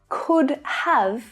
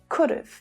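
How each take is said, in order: First: The word have is pronounced in full. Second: Have is shortened to a short v sound. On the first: "Could have is often said could've" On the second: "So the have is shortened to just of"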